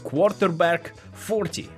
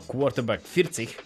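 First: The name is pronounced the English way. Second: The name is pronounced the German way.

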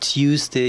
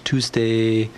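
First: A y sound comes before the vowel. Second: No y sound comes before the vowel. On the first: "you can pronounce this with a year" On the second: "or you can pronounce it without the yod"

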